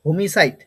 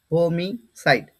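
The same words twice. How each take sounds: First: হোমিসাইড as one connected word, ho-mi-sait; pronunciation demo. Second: হোমিসাইড drawn out as ho, mi, sait; syllable-by-syllable pronunciation. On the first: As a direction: model হোমিসাইড firmly in one go. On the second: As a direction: break হোমিসাইড slowly into three separate parts. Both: Shown as a demonstration. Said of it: "উচ্চারণটা কি হবে?".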